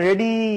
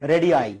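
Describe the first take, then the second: First: The word ends on an 'ee' sound. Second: The word ends on an 'eye' sound. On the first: The speaker calls it wrong. "অনেকে আছেন যে সুর করে বলেন রেডি" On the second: The speaker calls it right. "না, রেডি আই"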